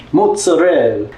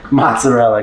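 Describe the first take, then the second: First: MOZZARELLA as "moot-sa-REL", higher; foreign-style mozzarella. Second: Said in the usual way. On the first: Shown as a demonstration. Naming the cheese for viewers, foreign-style mozzarella. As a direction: say mozzarella with a foreign "moo" opening. Says foreign name, then English.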